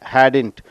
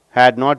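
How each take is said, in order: First: The words are contracted into one syllable. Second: Both words are said fully and separately. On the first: "pronounced as hadn't" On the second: "had not is uh, pronounced as"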